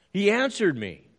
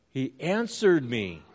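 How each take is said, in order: First: "He answered me" said higher and louder; "answered" punched up high; emphatic. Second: Said in the usual way. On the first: Shown as a demonstration. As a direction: proclaim "answered" with triumph. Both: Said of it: "what does he say? He what?".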